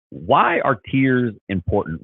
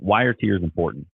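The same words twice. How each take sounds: First: WHY drawn out slow and high; slow, raised pitch, big weight on WHY; emphatic question. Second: Said in the usual way. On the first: Real, not acted. Host posing the topic to viewers, emphatic.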